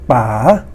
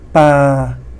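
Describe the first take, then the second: First: The pitch rises from low to high. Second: The pitch stays level throughout. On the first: Dad. "rising tone" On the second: To throw. "This is the flat tone"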